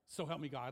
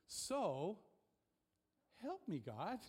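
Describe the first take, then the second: First: It is said flatly, as a plain statement. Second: It is said pleadingly, as an earnest appeal. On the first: It is just a formal vow being recited. The speaker calls it wrong. "like it's just a vow" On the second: It is a real plea for help. The speaker calls it right. "I think that should be like a request"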